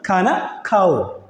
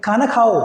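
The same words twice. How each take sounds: First: ഖാന Khao said again slowly, each word drawn out; slow it down so students catch ഖാന Khao; slow repeat. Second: Said in the usual way. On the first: Shown as a demonstration. Teacher repeats ഖാന Khao slowly for the class. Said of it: "എന്താണ്?". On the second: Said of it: "അപ്പൊ ഞാൻ പറയും".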